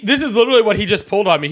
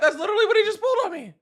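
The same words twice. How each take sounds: First: Said in the usual way. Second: High-pitched, fast, through laughter; laughing. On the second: Real, not acted. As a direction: say it while cracking up. Repeats line while laughing.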